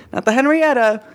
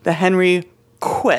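First: "Henrietta" with no k sound, pitched higher; wrong name Henrietta. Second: "Henriqueta" slowly, with "kwet-a" at the end; correct name Henriqueta. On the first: Host rules out a misreading, "Henrietta" without the k sound. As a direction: say "Henrietta", the ordinary name, as the one to avoid. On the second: Host clarifies the ship's name, slow "Henriqueta" with a kw sound. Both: Shown as a demonstration. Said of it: "if that would change the pronunciation".

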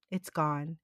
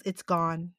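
First: Even softer, lower, almost gone; dying murmur. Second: Soft, low, fading breath of a dying man; dying murmur. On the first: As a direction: let the repeat nearly vanish. Dying Sam repeats, weaker. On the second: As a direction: say it weakly as life slips away. Dying Sam speaks weakly. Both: Retold or imitated.

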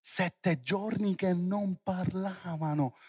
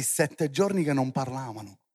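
First: Drawn-out, softer repeat; slow emphasis. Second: Said in the usual way. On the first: Real, not acted. Preacher lets seven days without speech sink in, slow and emphatic. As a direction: stretch "giorni" and "parlavano" slowly, letting it sink in. Repeats the phrase slowly for effect.

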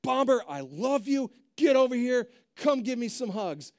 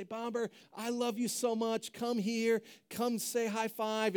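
First: Loud, high, harsh commands to a dog; raised voice. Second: Affectionate dog talk. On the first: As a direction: scold the dog with loving words. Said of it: "When we raise our voice". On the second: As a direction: coax the dog over lovingly. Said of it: "always responds to the tone of voice". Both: Shown as a demonstration.

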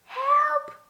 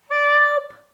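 First: Piep om hulp als een bang muisje; mouse squeak for help. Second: A louder, high squeaky cry of help; mouse squeak for help. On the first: (hoog piepend hulpgeroep) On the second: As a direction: piep nog luider om hulp, hoog en bang. (luider, hoog piepend hulpgeroep) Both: A narrator's reading. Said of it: "piepte hij heel zachtjes".

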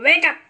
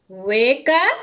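First: Loud, high, abrupt command; crow's wake-up call. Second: Drawn-out WAKE UP with a big rise at the end; questioning echo. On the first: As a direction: call it out sharply as a crow. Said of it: "says the crow". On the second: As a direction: ask it back, loud, sweeping upward on UP. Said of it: "asked the road". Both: A narrator's reading.

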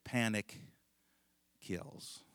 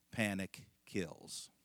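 First: Repeated with a pause for effect; dramatic pause. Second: Slow, solemn instructor's warning; grave warning. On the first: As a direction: hold the silence after Panic, then drop kills. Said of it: "He said". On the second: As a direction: Panic kills, slow and weighty with Panic stressed. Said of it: "He said, Here's the rule". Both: Retold or imitated.

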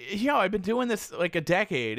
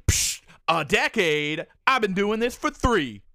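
First: Said in the usual way. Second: Scoffing mockery. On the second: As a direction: drag out "a decade?" like it's a joke. Woman scoffs at him.

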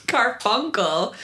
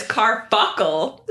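First: "Carfunkel" said slowly with a clear N in the middle; intended pronunciation. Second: "carfuckle" drawn out, N dropped, middle hit hard; slip with middle emphasis. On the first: Shown as a demonstration. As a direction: sound out "Carfunkel" slowly and carefully. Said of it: "if I can say it right". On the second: Retold or imitated. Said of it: "So much emphasis on the middle".

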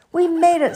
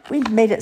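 First: High, loud, gleeful cheer; excited Peep. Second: Moderately high, lightly voiced cheer; a more contained happy cheer, slightly raised voice; Ducky cheering. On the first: Peep safe in from the storm, high jubilant cheer. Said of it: "said Peep". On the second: Ducky echoing Peep after the storm, milder happy cheer. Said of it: "said Ducky". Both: A narrator's reading.

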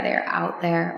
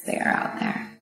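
First: Said in the usual way. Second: Breathed softly, almost no voice; secretive whisper to the ladies; hushed whisper. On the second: Real, not acted. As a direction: let it fall to a whisper. Repeated phrase, hushed.

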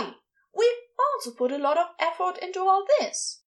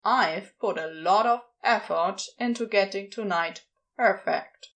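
First: High-pitched, huffy cultist; indignant retort. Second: Mildly irked demon retort; shot back. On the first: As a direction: protest in a much higher, offended voice. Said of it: "a different cultist retorted indignantly". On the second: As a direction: stand your ground against the cultists, slightly testy. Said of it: "he shot back". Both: A narrator's reading.

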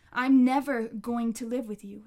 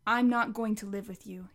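First: Louder, hard push on the refusal. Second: Said in the usual way. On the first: Acted. Connor refusing his grandma again, louder. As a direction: throw it at her, louder.

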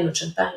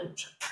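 First: Said in the usual way. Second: No chantaje whispered, much softer. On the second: Shown as a demonstration. Expert repeating no chantaje to parents, whispering.

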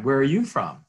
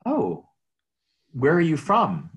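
First: High, loud, eager repeat of the opener; bright friendly greeting. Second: High, loud, eager opener; bright friendly greeting. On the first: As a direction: ask it like a cheerful realtor. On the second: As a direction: greet strangers with upbeat curiosity. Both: Retold or imitated. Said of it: "My typical opening line".

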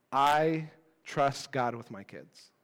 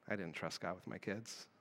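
First: Slow, dutiful churchy answer; the right answer. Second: Much softer and lower, an honest admission; quiet confession. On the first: Retold or imitated. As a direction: recite it like the answer you're supposed to give. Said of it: "the right answer". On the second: Real, not acted. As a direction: drop the voice and own the truth. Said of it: "You know what that showed me?".

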